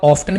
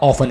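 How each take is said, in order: First: The t sound is clearly pronounced. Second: The t sound is left silent. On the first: "इस word को आप ऑफ्टन भी बोलते हैं" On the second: "और आप ऑफन भी बोलते हैं"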